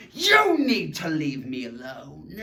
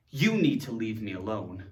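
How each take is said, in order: First: Slow, emphatic demand with an exclamation; more emotion. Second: Said in the usual way. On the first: Shown as a demonstration. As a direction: say it as a dramatic order. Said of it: "to have more emotion". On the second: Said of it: "this is ... makes a demand".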